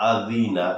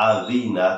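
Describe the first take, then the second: No difference in how they are said.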